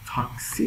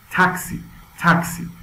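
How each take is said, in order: First: "تاکسی" said Persian style, "taak-SI"; long aa, stress on the end of "تاکسی"; "تاکسی" with an open aa and softer t; wrong pronunciation. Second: "تاکسی" as "TAK-si", puffed t and short a; "تاکسی" stressed on the first syllable, English style; explosive English pronunciation. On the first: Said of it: "پس تاکسی نیست". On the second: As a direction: pop the t of "تاکسی", vowel as in "cat". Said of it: "تاکسی هم به همین صورت". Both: Shown as a demonstration.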